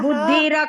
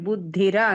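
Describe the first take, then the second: First: The final vowel is drawn out long. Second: The final vowel is kept short. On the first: The speaker calls it wrong. "బుద్ధిర కాదు" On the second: The speaker calls it right. "బుద్ధిర అంతే, దీర్ఘం లేదు"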